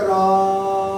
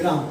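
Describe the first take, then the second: First: राम sung with a long drawn-out aa; राम, लंबा खींचकर; prolonged Ram. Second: Said in the usual way. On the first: Shown as a demonstration. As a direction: hold the vowel of राम three times as long. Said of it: "पलुत में इसका उच्चारण करेंगे तो उसका उच्चारण हो जाएगा". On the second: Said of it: "राम जब पलुत आएगा तो ऐसे आएगा".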